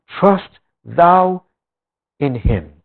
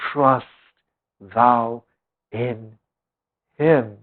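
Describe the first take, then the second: First: Thou lifted and held, Trust thou in him; stress on thou. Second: Quiet, slow reading, each word set apart. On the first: Preacher repeating the verse to the congregation, stressing thou. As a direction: lean on the word thou. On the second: Preacher reading the verse to the congregation, slow and soft. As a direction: lay out trust thou in him one word at a time, softly. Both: Shown as a demonstration.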